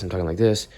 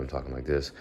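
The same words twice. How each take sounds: First: Quick, loud, energetic talk; fast wide-awake demo; fast and lively. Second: Quiet, drowsy morning talk; slow early-morning mumble; sleepy and slow. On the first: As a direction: rattle it off with energy. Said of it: "I'm talking really fast". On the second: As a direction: let it drift out half awake. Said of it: "just have this little thought". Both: Shown as a demonstration.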